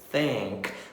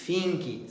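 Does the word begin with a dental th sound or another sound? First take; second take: dental th; another sound. First: It begins with the tongue between the teeth. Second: It begins without the tongue between the teeth. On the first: The speaker calls it right. "vamos colocar a língua nos dentes e vamos falar think" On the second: The speaker calls it wrong. "Não vamos falar think"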